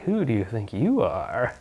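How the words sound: It sounds flirty and playful, like a seductress.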